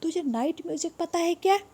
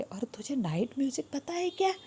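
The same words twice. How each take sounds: First: Voiced, high "तुझे night music पता है क्या?" rising on "क्या"; donkey voice. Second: Whispered "और तुझे नाइट म्यूजिक पता है क्या?" with no voice. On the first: ("तुझे नाइट म्यूजिक पता है क्या" ऊँची गधे की आवाज़ में) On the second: ("तुझे नाइट म्यूजिक पता है क्या" फुसफुसाकर) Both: Shown as a demonstration. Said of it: "या शायद डोंकी पूछ रहे".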